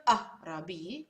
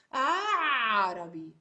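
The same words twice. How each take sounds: First: Arabi with a plain vowel, no throat catch; wrong Arabi. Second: Slow, loud Arabi, vowel choked into a throat catch; "Arabi" with the Ain squeezed after the first vowel; right Arabi with Ain. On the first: Teacher showing the wrong way, plain vowel. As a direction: say "Arabi" as if the Ain were just a vowel. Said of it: "It's not Arabi". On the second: Teacher showing the right way, throaty Ain. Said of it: "it's Arabi". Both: Shown as a demonstration.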